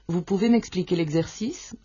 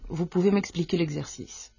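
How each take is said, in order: First: The voice rises at the end, like a question. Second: The voice falls at the end, like a statement. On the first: It asks a question. "Con la entonación ascendente" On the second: It states a fact. "Sería la afirmación"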